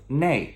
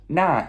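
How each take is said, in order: First: The word ends in an ei glide. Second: The word ends in an open a vowel.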